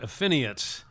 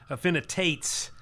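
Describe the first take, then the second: First: The name is said without the middle T sound. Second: The name is said with the middle T sound. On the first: The speaker calls it wrong. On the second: The speaker calls it right.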